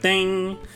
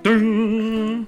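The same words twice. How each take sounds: First: The ding sounds thin and weak. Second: The ding sounds full and strong. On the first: A cheap hotel bell. The speaker calls it wrong. "they sound so shallow" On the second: A quality bell. The speaker calls it right. "You got to find one with chutzpah"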